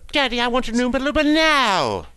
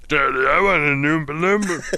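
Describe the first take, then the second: First: It is said in a girlish voice. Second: It is said in a deep voice.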